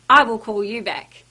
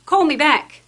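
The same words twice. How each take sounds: First: Courteous, helpful promise; polite promise. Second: Curt order. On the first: Staff member kindly promising a customer a callback, courteous. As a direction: reassure the customer you will follow up. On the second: Curt reply told to customer. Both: Shown as a demonstration.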